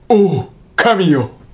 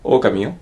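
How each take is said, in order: First: It is said with a break after 'ou'. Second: It is said lightly in one smooth run. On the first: It is a cry to God. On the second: It names a wolf.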